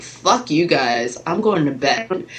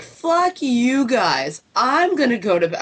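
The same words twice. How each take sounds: First: Slow, fed-up goodnight; a slow, tired fuck you guys; grumpy exit line. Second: Higher, very slow parroting of fuck you guys; mocking mom. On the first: Retold or imitated. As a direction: drag out fuck you guys like you're done. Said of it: "I'm like". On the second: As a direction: mimic her own words back in a higher voice. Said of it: "And Mom's like".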